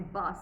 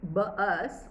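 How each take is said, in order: First: The word is said as one syllable. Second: The word is split into two syllables. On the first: The speaker calls it right. "I say bus" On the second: The speaker calls it wrong. "I don't say bus"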